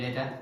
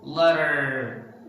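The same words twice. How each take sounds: First: "letter" said short like "le-tuh"; crisp, brief "letter" without the R; hard T, no R. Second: "letter" like "ledderrr"; slow, louder "letter" with long R; stressed final R. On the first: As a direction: true T and dropped R in "letter". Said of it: "They didn't say letter". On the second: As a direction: tap the T and stretch the R in "letter". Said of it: "they say letter". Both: Shown as a demonstration.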